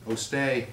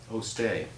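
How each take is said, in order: Both takes have the same delivery.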